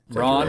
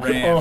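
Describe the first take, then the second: First: The vowel is an open 'ah' sound. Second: The vowel is a flat 'a' sound. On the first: It sounds refined or pretentious. "They're just saying it in a snooty way" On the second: It sounds like an unworldly American. "Ugly American Ran"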